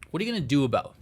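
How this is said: It is said in a non-dragon character voice.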